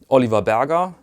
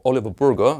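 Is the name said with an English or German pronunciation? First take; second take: German; English. First: The name is pronounced the German way. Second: The name is pronounced the English way.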